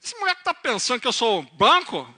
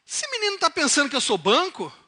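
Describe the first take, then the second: First: Put-on loud, indignant Piracicaba country accent. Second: Loud, high, outraged question; acted outrage in the preacher's usual accent; indignant father. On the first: Farmer reacting to his son's telegram, angry Piracicaba accent. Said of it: "Ele era mais piracicabano". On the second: Father reacting to his son's telegram, indignant. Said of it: "ele não falou assim".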